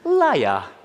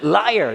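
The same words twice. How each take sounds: First: It is said in a British accent. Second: It is said in an American accent. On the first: "근데 미국 영국식으로 하면 그대로 읽으시면 됩니다" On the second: "미국식 영어로 하면"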